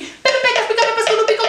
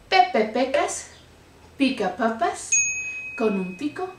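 First: It is said very fast. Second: It is said more slowly.

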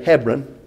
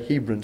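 First: Hebron is said the modern local way. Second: Hebron is said the traditional English way. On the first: This is how people say it today. "as they say today" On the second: This is how it has always been said here. "the way we've always pronounced it"

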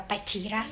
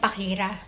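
First: It is said with a non-Japanese pronunciation. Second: It is said with a Japanese pronunciation. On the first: "ewan ko kung ano pronunciation niya talaga" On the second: "Sa Nihongo"

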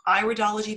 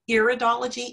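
First: The first syllable sounds like the start of 'iris'. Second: The first syllable does not sound like 'iris'. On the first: The speaker calls it right. "it's iridology, because it's an iris we're looking at" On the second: The speaker calls it wrong. "It's not iridology"

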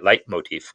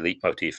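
First: The first syllable sounds like 'light'. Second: The first syllable does not sound like 'light'. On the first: The speaker calls it right. "that's light" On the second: The speaker calls it wrong. "I think a lot of people say leitmotif, but I think that's wrong"

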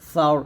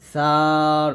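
First: The vowel is kept short, not stretched. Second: The vowel is stretched out long. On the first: The speaker calls it right. "এরকম" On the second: The speaker calls it wrong. "এরকম টান দিবেন না"

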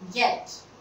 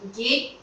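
First: The vowel is a short 'e' sound. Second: The vowel is a long 'ay' sound. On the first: The speaker calls it right. "This is get, not gate" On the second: The speaker calls it wrong. "mispronounced like gate"

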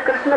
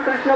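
No difference in how they are said.

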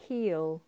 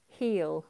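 First: It is said as one contracted syllable. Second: The same.

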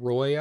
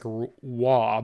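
First: The name is said like 'roy', with an r. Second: The name is said like 'wah', without an r. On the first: "I'm just going to say Roy" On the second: "There's that Colorado Avalanche player. It's like Waugh"

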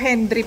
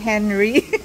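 First: The name is said with a D sound. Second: The name is said without a D sound. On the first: The speaker calls it wrong. "Ang sabi ko Henry Park" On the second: The speaker calls it right. "sabi naman ng babae Henry. Silent D"

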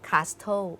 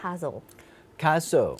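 First: The t sound is pronounced in the middle. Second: The t sound is silent in the middle. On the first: The speaker calls it wrong. "เขียนมีตัว, t, ก็จริงแต่เวลาออกเสียงเราไม่ออกเสียงว่า" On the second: The speaker calls it right. "เราออกเสียงว่า"

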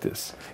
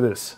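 First: The voice is low and quiet. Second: The voice is raised and loud. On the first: This way saves the voice. The speaker calls it right. "I try to talk with as low voice as possible, like this" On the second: This way wears the voice out. The speaker calls it wrong. "instead of raising my voice to this"

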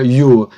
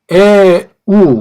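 First: It is pronounced as yu. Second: It is pronounced as eu. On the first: "그냥 유라고 하는 것도 좋아요" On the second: "에우라고도 발음할 수 있고"

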